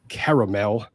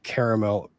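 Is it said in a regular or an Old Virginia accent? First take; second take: Old Virginia; regular. First: It is said in an Old Virginia accent. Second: It is said in his regular accent.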